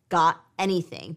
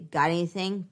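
First: The words are said separately without linking. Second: The words run together smoothly with linking. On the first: "It sounds really different, right, than just got anything" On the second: "With linking, we say"

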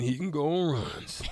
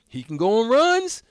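First: The tone sounds critical and negative. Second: The tone sounds approving and positive. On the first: His streaky play is a weakness. "or to the bad" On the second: His scoring streaks are a strength. "Either to the good"

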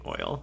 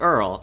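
First: It is said without an R sound, as oil. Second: It is said with an added R sound, like Earl. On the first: "he's saying oil" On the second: "he was from Brooklyn. So they just add R's to things"

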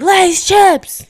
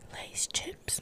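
First: The phrase is screamed loudly. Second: The phrase is whispered quietly. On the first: The speaker calls it right. "I'd rather scream" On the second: The speaker calls it wrong. "if I whisper"

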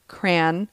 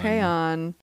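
First: The word is said with one syllable. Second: The word is said with two syllables. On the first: "some people say crayon. As in cranberry" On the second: "We say crayon with two syllables"

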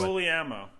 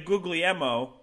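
First: The second G sound is left silent. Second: The second G sound is pronounced. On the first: The speaker calls it right. "just don't say the second G" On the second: The speaker calls it wrong. "say it right"

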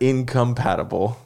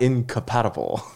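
First: The syllables are pronounced clearly and separately. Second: The syllables are blurred together when pronounced. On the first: The speaker calls it right. "I know the word incompatible" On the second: The speaker calls it wrong. "not incompatible"

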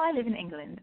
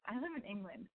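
First: It is said in a put-on English accent. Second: It is said in her own American accent.

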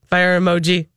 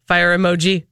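Both takes have the same delivery.

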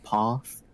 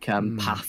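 First: The word is said in a Southern English accent. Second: The word is said in a Northern English accent. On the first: "instead of" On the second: "I also say certain words like a Northerner"

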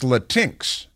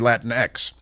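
First: The X is blended into one word. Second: The X is said as a separate letter.

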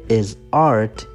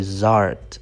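First: The two words are said separately. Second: The two words are linked into one unit. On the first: The speaker calls it wrong. "You don't say is art" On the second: The speaker calls it right. "you say zart"

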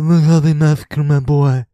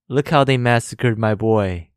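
First: It is said in a Godfather impression voice. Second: It is said in his normal voice.

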